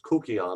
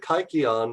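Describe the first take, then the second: First: The word is said in an ancient Greek way. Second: The word is said in the usual English way.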